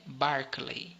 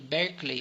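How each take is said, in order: First: The first syllable sounds like 'bar'. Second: The first syllable sounds like 'ber'. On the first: The speaker calls it right. "a pronúncia é Barclay" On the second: The speaker calls it wrong. "Apesar de estar escrito Berkeley"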